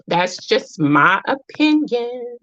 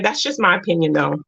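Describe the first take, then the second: First: Drawn out, higher, word by word; slow emphatic disclaimer. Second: Said in the usual way. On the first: Real, not acted. Repeating her disclaimer to listeners, slow and emphatic. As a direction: stretch each word out deliberately.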